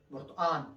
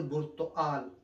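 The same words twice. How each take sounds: First: برتقان said with the final sound as n, Aleppo style; Aleppo pronunciation. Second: Said in the usual way. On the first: Shown as a demonstration. Teacher showing how Aleppo people say برتقان. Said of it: "الإخوان الحلبية يقولون برتقان". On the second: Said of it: "لا يقول برتقال".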